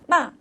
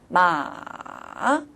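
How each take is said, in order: First: The pitch falls sharply from high to low. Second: The pitch dips low, then rises again. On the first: "높은 솔에서 도로 떨어지는 거죠" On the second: "레에서 도로 떨어졌다가 도에서 파로 올라가는 거죠"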